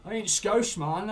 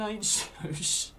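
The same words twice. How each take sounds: First: Higher and louder, indignant; loud mock-offended protest. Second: Slow, laughing through it; slow giggling repeat of the denial. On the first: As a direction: shout the denial back at the chat. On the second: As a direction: repeat it, cracking up mid-line. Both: Real, not acted. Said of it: "calm down, lad".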